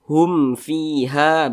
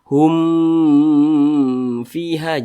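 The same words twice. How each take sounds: First: The m sound is short and clear. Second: The m sound is drawn out long. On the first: The speaker calls it right. "pendek jelas. Hum fiha begitu" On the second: The speaker calls it wrong. "jangan dibaca hum fiha, jangan jangan dipanjangkan seperti itu"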